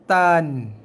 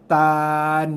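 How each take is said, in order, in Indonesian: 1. Vokalnya dipendekkan, satu harakat. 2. Vokalnya terlalu panjang. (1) "Satu harakat aja" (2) "Jangan sampai tan. Ha, tu dah terlebih"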